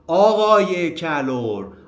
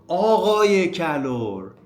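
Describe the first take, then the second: Both takes have the same delivery.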